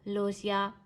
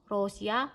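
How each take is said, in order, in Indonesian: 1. Kata ini diawali bunyi L. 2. Kata ini diawali bunyi R. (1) "ini dibaca L" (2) "dibaca R juga nggak masalah"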